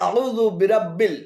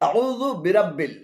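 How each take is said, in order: The two takes are said the same way.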